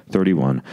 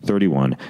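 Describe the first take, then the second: No difference in how they are said.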